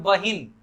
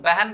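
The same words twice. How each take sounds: First: बहिन with a clear i, ba-hin; spelling pronunciation. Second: बहन as beh-en; spoken pronunciation. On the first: Hindi example by teacher, spelling pronunciation of बहिन. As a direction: say बहिन exactly as written. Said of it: "जैसे लिखा जाता है हिंदी में". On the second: Hindi example by teacher, everyday pronunciation of बहन. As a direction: soften बहन's vowels to e sounds. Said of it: "हम लोग बहन बोलते हैं". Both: Shown as a demonstration.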